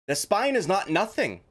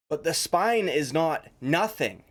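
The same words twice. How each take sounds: First: “is” punched higher, insisting; stress on is. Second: Slow, weighted “But the spine is not nothing”; slow and deliberate. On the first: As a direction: hit “is” hard to contradict. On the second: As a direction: lay out each word slowly. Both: Shown as a demonstration.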